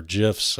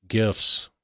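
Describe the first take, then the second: First: "gifs" with a soft G, like J. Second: "gifs" with a hard G. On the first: Offering the other way to say "gifs", soft G. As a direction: say "gifs" as if spelt "jiffs". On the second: Offering both ways to say single pixel "gifs", hard G. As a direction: say "gifs" starting like "give". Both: Shown as a demonstration. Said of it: "or gifs".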